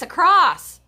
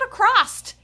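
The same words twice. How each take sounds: First: The word ends with a plain S sound. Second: The word ends with an added T sound. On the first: The speaker calls it right. "it's across" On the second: The speaker calls it wrong. "where do you see the T in that word? ... it's not across"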